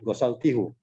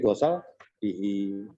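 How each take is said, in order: First: The word ends with the vowel 'u'. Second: The word ends with the vowel 'i'. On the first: The speaker calls it wrong. "bukan gosal tihu" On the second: The speaker calls it right. "karena dia sebelumnya kasroh dibaca gosal tihi"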